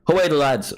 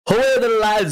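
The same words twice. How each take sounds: First: It is said in his ordinary speaking voice. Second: It is said in an attempted put-on voice. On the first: "I'm gonna just do my normal voice" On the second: "I can't do the voice"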